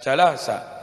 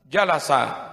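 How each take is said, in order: First: The stress falls on a later syllable. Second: The stress falls on the first syllable. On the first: The speaker calls it wrong. "jangan jalasa" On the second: The speaker calls it right. "tekan huruf yang pertama. Jalasa, gitu"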